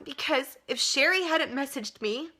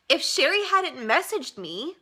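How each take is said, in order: First: Said in the usual way. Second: Slow, higher voice breaking with tears; tearful. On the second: Real, not acted. Thanking her friend Sherry, crying. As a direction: say it through real tears. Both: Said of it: "why am I crying?".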